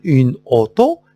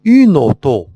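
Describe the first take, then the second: First: "une auto" as two separate words; no liaison. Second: "Une auto" run together as u-nauto; "Une auto" linked as one word, louder; liaison. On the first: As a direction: split "une" from "auto", with a break before the o. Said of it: "لا، ما نقول une auto". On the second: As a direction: carry the n of "Une" straight into "auto". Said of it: "كنقول la liaison". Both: Shown as a demonstration.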